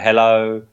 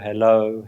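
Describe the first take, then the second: First: The word is said at its loudest. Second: The word is said more quietly still. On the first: "gradually getting fainter and fainter" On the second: "gradually getting fainter and fainter"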